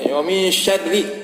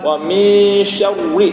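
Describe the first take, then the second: First: The r sound is light and thin. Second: The r sound is heavy and thick. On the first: The speaker calls it right. "yang dikasrohkan atau yang tarqiq tipis" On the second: The speaker calls it wrong. "kalau tebal"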